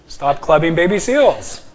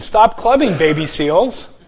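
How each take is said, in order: First: Put-on "Stop clubbing baby seals" run together as one command; "clubbing" flows straight into "baby seals". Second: Put-on "Stop clubbing," then a pause before "baby seals", the seals addressed; comma after clubbing. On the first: Teacher showing the no-comma reading, "Stop clubbing baby seals" unbroken. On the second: Teacher showing the comma reading, pause after "clubbing". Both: Shown as a demonstration. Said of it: "punctuation makes all the difference".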